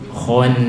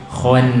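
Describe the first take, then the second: No difference in how they are said.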